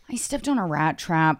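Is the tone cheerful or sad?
sad. It is said sadly, like a complaint.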